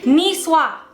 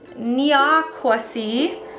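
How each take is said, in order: First: The name is said as the established name. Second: The name is sounded out letter by letter. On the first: The speaker calls it right. "Niçoise, something like that" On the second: The speaker calls it wrong. "if you sound it out, it looks like Niaquasi. Uh, that's not it"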